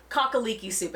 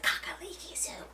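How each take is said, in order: First: Said in the usual way. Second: Hushed, reverent whisper of the soup name; whispered "Kakaliki soup", higher and much softer; awed whisper. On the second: Retold or imitated. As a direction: breathe "Kakaliki soup" like a sacred word. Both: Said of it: "And immediately I'm like".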